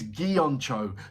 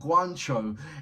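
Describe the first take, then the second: First: The name begins with a 'gi-on' sound. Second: The name begins with a 'gwan' sound. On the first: The speaker calls it right. "is Gioncho" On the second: The speaker calls it wrong. "it's not Guancho"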